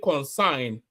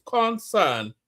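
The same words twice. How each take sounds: First: Concern als kon-sain uitgesproken; mocked mispronunciation. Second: Said in the usual way. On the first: Shown as a demonstration. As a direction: zeg concern spottend als consign. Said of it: "So how is it concern". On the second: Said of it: "Concern is only two syllables".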